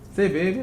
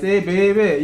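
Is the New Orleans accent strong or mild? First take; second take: mild; strong. First: It is said plainly with a mild accent. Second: It has a strong, drawn-out New Orleans accent.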